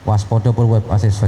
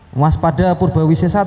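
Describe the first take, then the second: First: The vowels are pronounced as rounded 'o' sounds. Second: The vowels are pronounced as open 'a' sounds. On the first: It follows Javanese pronunciation. "kalau saya belajar bahasa Jawa itu waspodo purbawaseso" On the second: It follows the written spelling. "Ya itu tulisan itu seperti itu"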